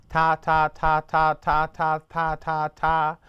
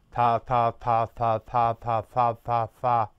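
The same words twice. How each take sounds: First: Crisp "ta", tongue tapping just above the middle of the teeth; "Ta, ta" said short and clean with the tongue tip tapping the teeth; correct tongued ta. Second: Muffled "ta" with the tongue resting at the tips of the bottom teeth; "Ta, ta" with the tongue kept low, a slightly lower dull wrong sound. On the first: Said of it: "If you say the word ta". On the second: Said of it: "with your tongue all the way down". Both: Shown as a demonstration.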